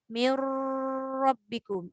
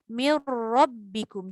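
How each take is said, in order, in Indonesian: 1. Bunyi r yang digandakan ditahan terlalu lama. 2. Bunyi r yang digandakan singkat dan tegas. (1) "janganlah bersangatan itu sampai mir rabbikum... itu dia dah melebihi kadar gunnah pula" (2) "Jadi bacaan dia mir rabbikum. Jelas betul dekat ra"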